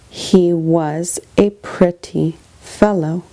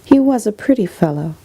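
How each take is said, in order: First: It is read slowly, word by word. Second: It is read at a normal, quicker pace.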